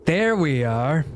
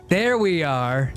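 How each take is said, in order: Both takes have the same delivery.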